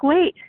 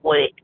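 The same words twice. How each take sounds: First: The word is said gently and softly. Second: The word is said curtly and rudely. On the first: "nice and softly" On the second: "in a really rude voice"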